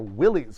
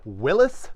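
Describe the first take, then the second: First: It is said the way most people say it. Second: It is said like the founder's surname. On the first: This is how most people say it today. "which is what everybody says" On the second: This is how the founder's name was said. "the proper name"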